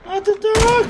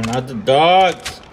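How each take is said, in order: First: Very high squeaky whine; squeaky mock voice. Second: Said in the usual way. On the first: Repeats in put-on voice.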